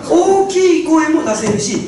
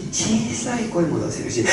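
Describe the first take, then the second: First: 大きい声 said bigger and slower; loud voice demo. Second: Quiet voice demo. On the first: Speaker demonstrating a big voice to the audience, louder. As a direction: show the big voice on 大きい. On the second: Speaker demonstrating a small voice to the audience, hushed. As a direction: shrink the voice on 小さい. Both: Shown as a demonstration.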